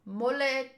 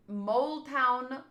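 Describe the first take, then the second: First: "Moleton" said as mo-lay-ton; joking mispronunciation. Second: Said in the usual way. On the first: Shown as a demonstration. Reader playfully corrects the town's name, "Moleton" as mo-lay-ton. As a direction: say "Moleton" with a mock-foreign "lay" in the middle. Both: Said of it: "I said that wrong".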